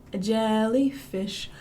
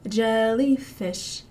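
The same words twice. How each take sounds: The two takes are said the same way.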